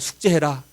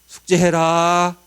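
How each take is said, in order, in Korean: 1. 평범하고 편한 말투로 말했습니다. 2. 억양을 바꿔 더 엄하게 말했습니다.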